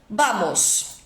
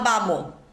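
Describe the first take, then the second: First: The final s is pronounced. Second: The final s is dropped.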